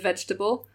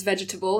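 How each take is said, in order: First: Said in the usual way. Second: "vegetable" with every syllable sounded; four full syllables in "vegetable"; granny's northern pronunciation. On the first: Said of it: "instead of". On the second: Retold or imitated. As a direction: say "vegetable" as "vej-eh-tuh-bull". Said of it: "my granny was she says".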